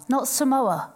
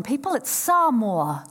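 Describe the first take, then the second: First: Samoa said the English way; the common English Samoa, set against the right one; anglicised mispronunciation. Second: Samoa said the Polynesian way, slow and clear; correct Samoan pronunciation. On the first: Speaker showing the audience the wrong Samoa. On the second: Speaker teaching the audience how to say Samoa, slowly. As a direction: Samoa spoken carefully with the native sounds. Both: Shown as a demonstration. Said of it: "The G is silent in Polynesian languages".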